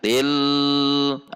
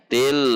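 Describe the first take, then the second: First: The L is held for a long time. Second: The L is medium length and flows on. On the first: The speaker calls it wrong. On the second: The speaker calls it right. "sifatnya adalah bainiyah"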